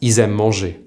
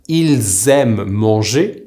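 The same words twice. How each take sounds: First: 'ils aiment manger' as 'i-z-aiment', no L; spoken liaison form. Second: 'ils aiment manger' slowly as 'il-z-aiment', L and Z both sounded; careful full form. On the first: Teacher showing what is actually pronounced, ils aiment manger as i-z-aiment. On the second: Teacher showing they love to eat, ils aiment manger fully articulated. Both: Shown as a demonstration. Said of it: "is actually pronounced".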